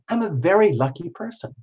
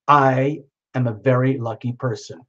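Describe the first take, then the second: First: It is said in a theatrical, actorly tone. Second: It is said in a defiant, assertive tone.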